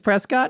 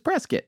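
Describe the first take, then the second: First: The second syllable sounds like 'cot'. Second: The second syllable sounds like 'kit'. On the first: "Some locals said it was" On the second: "Like a biscuit"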